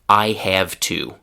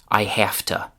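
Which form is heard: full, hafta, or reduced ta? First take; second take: full; hafta. First: Every word is fully pronounced, with a clear to. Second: Have ends in f, and to reduces to ta. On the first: "the classic classroom pronunciation" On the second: "we change it to unvoiced f"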